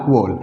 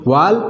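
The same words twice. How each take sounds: First: वॉल with a rounded 'aw'; rounded 'aw' vowel. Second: वाल with a long open 'aa'; open 'aa' vowel. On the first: Teacher gives second accepted pronunciation, rounded 'aw'. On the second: Teacher gives first accepted pronunciation, open 'aa'. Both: Shown as a demonstration. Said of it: "दोनों हम बोल सकते हैं".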